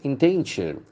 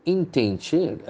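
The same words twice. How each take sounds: First: Said in the usual way. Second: Endangered drawn out slowly, "dan" held and rising; slow stressed model. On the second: Shown as a demonstration. Teacher slowly modelling the word for learners, stress on "dan". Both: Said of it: "The accent falls to the second syllable".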